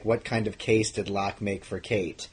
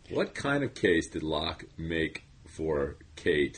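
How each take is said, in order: First: Slow mock-stilted read; mocking scripted read. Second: Slow stilted podcast read; stiff scripted read. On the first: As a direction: parody the stiff script. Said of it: "when you read a sentence like". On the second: Acted. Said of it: "Wow, you were just".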